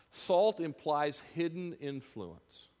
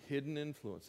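First: Slow, weighty Salt implies hidden influence; stress on hidden influence. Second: Soft echo. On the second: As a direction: repeat it quietly to yourself. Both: Shown as a demonstration.

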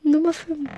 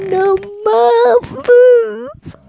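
First: Said in the usual way. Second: „fünf“ viel höher und lauter, steigend; quietschige Ansage. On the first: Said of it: "Ansage wiederholt". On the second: Shown as a demonstration. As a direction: quietsch „Nummer fünf“ als Gag. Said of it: "gesungene Ansage". („Nummer fünf“ albern hoch gequietscht)

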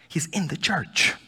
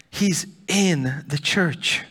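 First: Said in the usual way. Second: Slow, with the word in leaned on heavily; slow emphatic repeat landing on in; stress on in. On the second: Shown as a demonstration. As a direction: drag it out and weigh down in.

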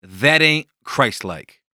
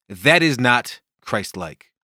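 First: "That Ain't Christ-Like" said slowly, each word set apart; slow title announcement. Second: "that is not Christ-like" said slowly and carefully; careful, proper "that is not Christ-like"; proper wording. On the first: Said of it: "today's title is". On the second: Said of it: "If I were to be proper about it". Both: Shown as a demonstration.

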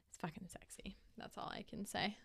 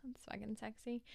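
First: Unvoiced, confiding whisper. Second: Said in the usual way. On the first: Real, not acted. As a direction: lean in and whisper it like a secret. Confiding about the accent.

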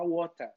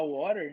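First: "water" in a British accent; forced British accent. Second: "water" in an American accent. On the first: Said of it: "forçação de sotaque daqui". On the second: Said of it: "eu falo mais inglês americano". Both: Shown as a demonstration.

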